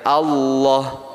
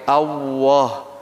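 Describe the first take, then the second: First: The L sound is shaped by the tongue alone. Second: The L sound is shaped with the lips. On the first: The speaker calls it right. "Jadi yang berfungsi adalah lidahnya" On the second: The speaker calls it wrong. "jangan menyampurkan sama bibir, lidah sama bibir. Misalnya gini ... jangan seperti itu ya"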